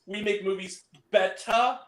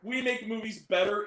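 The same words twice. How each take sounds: First: "betta" said with dropped r, like an accent; "betta", no r at the end. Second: Said in the usual way. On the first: Shown as a demonstration. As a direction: clip "betta" to end on a flat "ah". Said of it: "B E T T A". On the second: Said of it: "it was".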